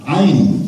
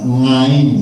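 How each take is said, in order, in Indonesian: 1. Kata itu langsung diawali dengan vokal. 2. Kata itu diawali dengan bunyi 'ng'. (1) "Semestinya alamin ain" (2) "bukan ngain"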